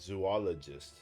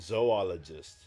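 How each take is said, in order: First: The first syllable sounds like 'zoo'. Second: The first syllable sounds like 'zoh'. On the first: The speaker calls it wrong. "we pronounce it wrong" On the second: The speaker calls it right. "If you think about the lettering, it like sounds correct"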